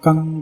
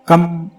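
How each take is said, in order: First: The syllable ends in a nasal 'ng' sound. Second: The syllable ends in a closed 'm' sound. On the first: The speaker calls it right. "उसे नाक से बोलना होता है" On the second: The speaker calls it wrong. "ये गलत हो जाएगा"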